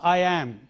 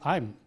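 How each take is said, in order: First: It is said as two full separate words. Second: It is said as one short contracted word. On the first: The speaker calls it wrong. "It is not I am" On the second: The speaker calls it right. "but it is I'm"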